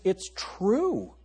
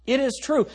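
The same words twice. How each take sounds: First: Said in the usual way. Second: It is true with TRUE punched high; stress on true. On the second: Shown as a demonstration. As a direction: hit "true" hard and high, each word firm.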